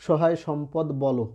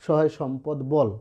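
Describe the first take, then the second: First: বলো with an added final o; mistaken open ending. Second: Slow line, বল closed on the l; corrected closed ending. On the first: Teacher showing how many misread the poem, বলো ending in o. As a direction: end the verse line on বলো, two syllables. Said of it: "অনেকে উচ্চারণ করে". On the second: Teacher correcting the poem's reading, slow, বল ending on l. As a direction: say it slowly, বল with no final vowel. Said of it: "আসলে সহায় সম্পদ বলো না". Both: Shown as a demonstration.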